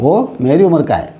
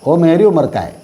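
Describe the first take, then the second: First: The words are reduced and run together. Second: The words are reduced and run together.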